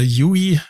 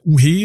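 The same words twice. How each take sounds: First: "Yui" said the American way, you-ee; "Yui" as English you-ee; American pronunciation. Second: "Uhe" said the German way, oo-hay; "Uhe" as two German syllables, oo-hay; German pronunciation. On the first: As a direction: say "Yui" as Americans would, starting with a y glide. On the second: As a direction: say "Uhe" with German vowels and an audible h. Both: Shown as a demonstration. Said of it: "wenn's die Amerikaner aussprechen würden".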